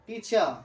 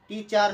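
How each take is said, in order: First: টিচার as "teecha", the r started but left unfinished; half-said final r. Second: টিচার with the closing r fully sounded, "teechar"; final r pronounced. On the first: Teacher correcting learners, final r dropped. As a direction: let the end of টিচার open out without the r. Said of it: "কিন্তু শেষ হবে না". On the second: Teacher showing the mistaken form, final r pronounced. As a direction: finish টিচার on a full r. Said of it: "টিচার নয়". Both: Shown as a demonstration.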